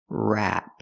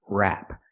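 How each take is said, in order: The two takes are said the same way.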